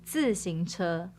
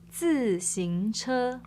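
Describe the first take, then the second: First: The word is said at normal conversational speed. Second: The word is said slowly and carefully.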